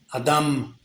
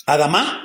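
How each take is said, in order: First: "Adam" falling, with no stress on any final A; low, soft "Adam", ending unaccented; no final accent. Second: "Adamá" with the accent on the last A; end-stressed "Adamá"; stress on final A. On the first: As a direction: drop softly off the end of "Adam". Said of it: "es sin acento". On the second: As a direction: say "Adamá" rising onto a stressed final syllable. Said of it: "con acento en la A". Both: Shown as a demonstration.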